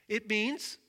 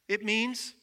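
Both takes have the same delivery.

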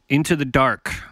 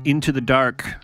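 The two takes are said the same way.

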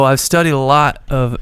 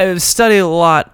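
First: It is said in a put-on cool voice. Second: It is said in his normal voice.

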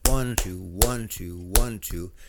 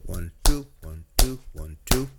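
First: The stress falls on each one. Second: The stress falls on each two.

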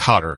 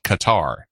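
First: The name sounds like 'Kotter'. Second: The name does not sound like 'Kotter'. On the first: This is the newer pronunciation the speaker thinks is current. "they changed it to Qatar, kind of like welcome back Qatar" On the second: This is the older pronunciation once taught in the United States. "when I was taking sixth grade geography, it was called Qatar"

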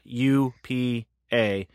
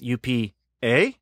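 First: The last letter is a plain 'ay' sound. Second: The last letter sounds like the interjection 'eh'. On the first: The speaker calls it wrong. "It's not UPA" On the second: The speaker calls it right. "It's spelled EH, you know? It's that kind of A"

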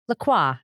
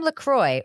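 First: The name ends with a French 'wah' sound. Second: The name ends with an 'oy' sound. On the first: The speaker calls it wrong. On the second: The speaker calls it right.

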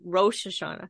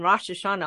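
First: The vowel in Rosh is a long O. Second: The vowel in Rosh is a short O. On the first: "This is one of those that has a long O. And so I always have to make myself say" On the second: "after hearing Rosh Hashanah all my life"

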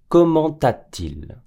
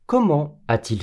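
First: A t-sound links comment to a. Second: Comment is kept separate from a with no t-sound. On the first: The speaker calls it wrong. "Comment a-t-il ではありません。" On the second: The speaker calls it right. "Et non"

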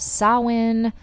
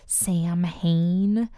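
First: The word sounds like 'sow-in', without an h. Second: The word sounds like 'sam-hain', as spelled. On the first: This is the traditional form of the name. "That is the preferred pronunciation for the holiday" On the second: This is a common spelling-based form of the name. "that you might sometimes hear as Samhain"

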